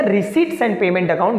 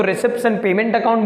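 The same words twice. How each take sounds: First: "receipts" said as riseets with no p; silent p. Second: "receipts" said as resipts with the p; p sounded. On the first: Teacher showing the correct way to say receipts, with a silent p. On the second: Teacher showing one way to say receipts, with the p. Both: Shown as a demonstration. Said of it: "that is silent".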